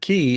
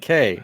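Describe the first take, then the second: First: The word rhymes with 'see'. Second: The word rhymes with 'day'. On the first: "when they say no, it's Ke- Key" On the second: "I'm calling it K"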